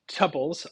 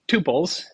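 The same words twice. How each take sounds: First: The first syllable sounds like 'tup' in Tupperware. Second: The first syllable sounds like 'too', a long vowel. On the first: "I go with tuples because I grew up in the age of Tupperware" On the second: "people that insist on tuples"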